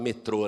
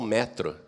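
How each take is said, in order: First: Brazilian form, stress on the last syllable. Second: Portuguese form, stress on the first syllable.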